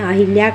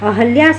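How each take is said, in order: First: An 'i' vowel is added after the 'h'. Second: There is no 'i' vowel after the 'h'. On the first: The speaker calls it wrong. "उच्चारण करते हैं अहिल्या कर देते हैं, तो ये गलत है" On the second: The speaker calls it right. "अहल्या सही है"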